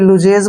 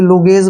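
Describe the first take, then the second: First: It starts with 'lu' and has a 'j' middle. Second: It starts with 'lu' and has a 'g' middle. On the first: "कोई लुजेज बोलता है इसको" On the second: "कोई लुगेज बोलता है"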